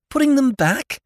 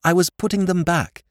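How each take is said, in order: First: Very high disbelieving question; lordship's squeaky disbelief; incredulous echo. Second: Said in the usual way. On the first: A narrator's reading. Lordship echoes Jimmy in disbelief.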